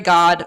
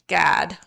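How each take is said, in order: First: It is said in a neutral accent. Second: It is said in Mary's Chicago accent.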